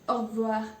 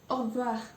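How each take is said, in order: No difference in how they are said.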